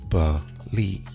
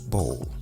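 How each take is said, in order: First: The ending is said as two syllables. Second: The ending is said as one syllable. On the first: The speaker calls it right. "pronounced using two syllables" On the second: The speaker calls it wrong. "would seemingly be pronounced bowl"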